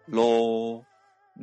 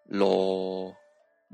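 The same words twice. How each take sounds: First: The syllable is level at a mid pitch. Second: The syllable is level at a low pitch. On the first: "中ぐらいの高さで平らに発音する第7 声" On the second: "低い位置で平らに発音する第3 声"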